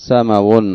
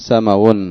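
Both takes have the same delivery.

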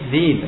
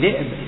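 First: The glottal stop is replaced by a long i vowel. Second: The word has a glottal stop after the first consonant. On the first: "يجوز أن تقلب حرفا من جنس حركة ما قبلها" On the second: "وفي ذئب"

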